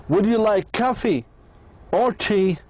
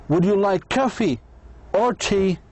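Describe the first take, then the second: The two takes are said the same way.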